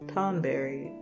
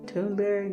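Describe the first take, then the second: First: The first syllable has a short 'o' vowel. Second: The first syllable has a long 'oo' vowel. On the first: "Tonberry sounds right, right?" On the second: "I want to be Toon because Toon is two O's"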